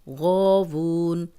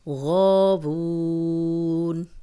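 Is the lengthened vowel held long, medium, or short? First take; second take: short; medium. First: The vowel is held for two counts. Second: The vowel is held for four counts. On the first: "दो" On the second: "चार"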